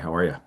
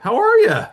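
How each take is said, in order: First: It sounds like an assumptive greeting, not a question. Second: It sounds like a real, open-ended question. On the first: The caller assumes the person is fine and moves on. The speaker calls it right. "It's more of an assumptive thing, right?" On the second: The caller genuinely asks how the person is. The speaker calls it wrong. "notice I don't say, "How are you?" like an open-ended question"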